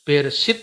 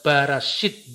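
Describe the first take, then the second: First: The first syllable has an e vowel. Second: The first syllable has an a vowel. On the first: This is the usual reading of the word. "Bereshit itu" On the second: This is the Samaritan community's reading of the word. "dibaca Barashit"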